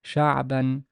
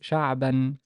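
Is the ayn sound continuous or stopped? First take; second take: continuous; continuous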